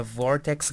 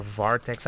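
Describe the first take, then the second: First: "Vortex" with an OR vowel in the first syllable; pronounced Vortex. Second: "Vartex" with an AR vowel in the first syllable; pronounced Vartex. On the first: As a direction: say "Vortex" like the word vortex. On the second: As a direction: say "Vartex" to rhyme its start with car. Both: Shown as a demonstration. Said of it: "I don't know his name".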